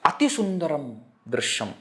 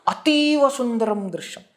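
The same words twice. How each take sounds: First: Said in the usual way. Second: Ativa sung out high with awe; stress on ativa. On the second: Shown as a demonstration. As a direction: lift ativa high as if marvelling. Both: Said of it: "Ativa means extreme".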